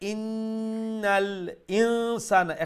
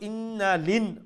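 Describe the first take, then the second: First: The glottal stop before insana is clearly pronounced. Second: The glottal stop is dropped, words run together. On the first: The speaker calls it right. "হামজাতে আর একটু স্পষ্ট করবা" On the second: The speaker calls it wrong. "হামজারে আমরা বাদ দিলাই"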